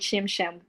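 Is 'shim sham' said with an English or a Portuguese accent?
English. It is said with an English accent. This is how the other group says it. "we don't say shim sham"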